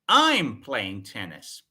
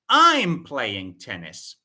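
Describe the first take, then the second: The two takes are said the same way.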